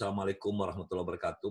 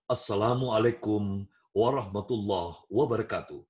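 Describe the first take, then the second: First: It sounds relaxed and conversational, like chatting. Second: It sounds lively, with higher stress, like a host. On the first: The speaker goes straight into being a resource person. "Misalnya kamu sambutan, ... Ini pembicara yang, eee, langsung menjadi narasumber" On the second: It opens an event as master of ceremonies. "Om, M C, dengarin"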